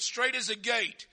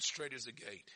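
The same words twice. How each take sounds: First: Slow, raised "Straight is the gate"; emphatic repeat. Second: Soft, low "Straight is the gate"; hushed scripture quote. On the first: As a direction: proclaim "Straight is the gate" slowly and firmly. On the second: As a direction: state it quietly and gravely. First, hushed take of the quote. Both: Real, not acted.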